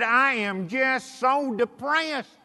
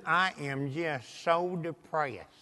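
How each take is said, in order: First: Higher, drawn-out mock lament; emphatic complaint. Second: Slow, low, soft imitation of a dejected woman; depressed. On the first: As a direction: repeat the woe slowly, pitched up to be heard. Repeating her complaint after being questioned. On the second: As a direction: drag it out, sunk and quiet. Retelling a depressed lady's complaint.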